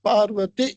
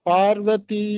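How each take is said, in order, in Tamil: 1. கடைசி எழுத்தை நிறுத்தாமல் குறிலாகச் சொல்லுவோம். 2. கடைசி எழுத்தை கொஞ்சம் நீட்டிச் சொல்லுவோம். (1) "அப்படி நிறுத்தாம" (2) "அப்படி கொஞ்சம் நீட்டி தீய சொல்லலாம்"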